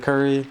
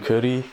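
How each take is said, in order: First: Curry is said with an English pronunciation. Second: Curry is said with a Japanese pronunciation.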